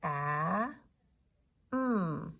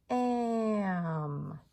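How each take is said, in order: First: "A," then "mm." said apart with a clear pause; bumpy sounding out. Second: "Am." stretched in one long glide; smooth blending. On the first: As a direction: tap each sound separately: "A," pause, "mm.". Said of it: "One more time". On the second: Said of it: "smooth blending". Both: Shown as a demonstration.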